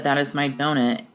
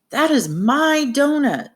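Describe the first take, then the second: First: Said in the usual way. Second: Insistent, high-pitched exclamation; adamant. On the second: Acted. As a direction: exclaim it like you really insist. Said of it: "if Clem was really adamant".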